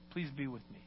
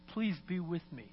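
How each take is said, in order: First: It is said quietly, almost silently. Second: It is said in a raised, crying voice.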